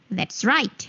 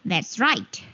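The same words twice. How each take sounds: The two takes are said the same way.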